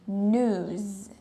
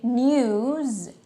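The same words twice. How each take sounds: First: News as NOOZ, no y glide; second pronunciation. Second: News as NYOOZ, with a y glide; first pronunciation. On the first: Teacher showing two ways, news without glide. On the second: Teacher showing two ways, news with glide. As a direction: say news with a y after the n. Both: Shown as a demonstration. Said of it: "can be pronounced in two ways".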